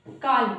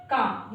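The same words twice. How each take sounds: First: काल with the L sounded, louder; wrong pronunciation. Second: काम with the L silent; long vowel straight into M in काम; correct pronunciation. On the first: Teacher showing learners a wrong reading, L voiced in काल. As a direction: say काल with an audible L. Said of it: "जो कि गलत है". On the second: Teacher showing learners the right reading, L silent in काम. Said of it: "इसको पढ़ेंगे". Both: Shown as a demonstration.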